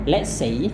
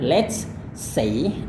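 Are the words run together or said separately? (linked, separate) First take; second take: linked; separate. First: The words are run together into one sound. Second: Each word is pronounced separately and fully. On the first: "ngomongnya sambungin" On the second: "kalau Anda mau lafalkan kata per kata"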